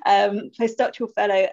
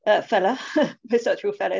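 First: Said in the usual way. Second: Slipping into an Essex accent with a laugh. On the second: Real, not acted. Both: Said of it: "that was my Essex accent coming out there".

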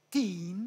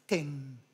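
First: Put-on "την" with a long English ee, like teen; long ee vowel. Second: "τεν" like English ten; short English vowel. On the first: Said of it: "λέμε". («την» με μακρύ ι) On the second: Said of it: "ή". («τεν» με κοφτό ε) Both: Shown as a demonstration.

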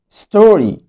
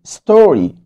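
Both takes have the same delivery.

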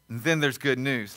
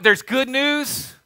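First: "good news" dropped low and soft; truly good news. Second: "good news" held high and drawn out; ordinary good news. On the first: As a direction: lower the voice for a weighty "good news". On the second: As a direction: stretch "good news" slowly, left hanging high. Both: Acted. Two grades of good news contrasted.

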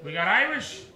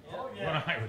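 First: Said in the usual way. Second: Quiet mock answer; mumbled mock "What Irish?"; mock muted reply. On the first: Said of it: "crowd work question". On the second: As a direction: toss it back quieter, pretending. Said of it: "mock reply".

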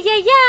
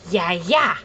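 First: Put-on Yaya sung up high for the baby; sing-song "Yaya" with a lift at the end; high coaxing prompt. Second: Said in the usual way. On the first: Shown as a demonstration. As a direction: pitch "Yaya" up and coax it out. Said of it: "Frank say".

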